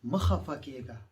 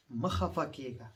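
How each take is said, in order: First: مخفكيغا said loud and clear in Pashto; Pashto word, clearly spoken. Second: مخفكيغا said slowly, syllable by syllable; slow Pashto word. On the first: Teacher shows the class a Pashto word, firmly. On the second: Teacher repeats the Pashto word slowly for students. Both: Shown as a demonstration. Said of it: "لا تحزن".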